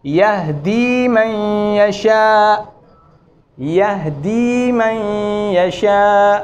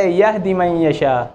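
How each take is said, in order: First: यहदी मन यशा very slow with the दी held; slow recitation. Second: यहदी with the ee cut short; wrong short vowel. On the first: Teacher reciting the verse slowly. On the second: Teacher showing a common mistake. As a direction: clip the दी in यहदी. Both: Shown as a demonstration. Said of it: "ये गलत है".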